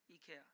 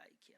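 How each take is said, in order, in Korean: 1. 'ee-ke-a'라고 발음해요. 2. 'eye-kee-a'라고 발음해요. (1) "우리나라에서는 이케아라고 하는데" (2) "미국에서는 아이키아라고 합니다"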